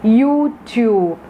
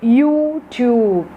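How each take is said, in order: First: The vowels are said long. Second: The vowels are said long.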